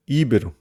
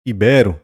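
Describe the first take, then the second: First: Íbero stressed on the first syllable, Í-be-ro; Íbero as the mistake, Í-be-ro; wrong stress. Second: Ibero stressed on the middle syllable, i-BE-ro; correct stress. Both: Shown as a demonstration. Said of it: "Não é Íbero, mas Ibero".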